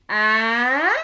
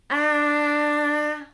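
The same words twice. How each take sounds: First: The pitch rises throughout. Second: The pitch stays level throughout. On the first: "c'est un accent montant représenté par l'accent aigu" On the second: "c'est l'accent neutre"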